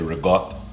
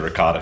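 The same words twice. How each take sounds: First: The word is pronounced with an Italian accent. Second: The word is pronounced with an American accent. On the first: "I think the Italians actually say ricotta" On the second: "I just say ricotta cheese"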